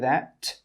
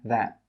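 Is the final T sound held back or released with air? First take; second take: released; held back. First: The final T is released with a puff of air. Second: The final T is held back without air. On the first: The speaker calls it wrong. "we don't say that" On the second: The speaker calls it right. "we stop the air from coming out with that last T sound"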